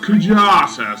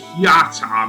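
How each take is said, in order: First: The J sound is pronounced in the name. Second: The J sound is silent in the name. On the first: This follows the current official version. "apparently it is now pronounced Kujata" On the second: This follows the older translation. "I originally pronounced it Kiata"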